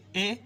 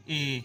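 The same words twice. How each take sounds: First: Teacher's short-vowel "اے". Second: Teacher's long-vowel "اے". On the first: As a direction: say "اے" as a brief, half-length vowel. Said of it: "آدھا یہ پڑھیں گے". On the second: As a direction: hold "اے" out as a full-length vowel. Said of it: "اس میں ہم پڑھیں گے پورا". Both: Shown as a demonstration.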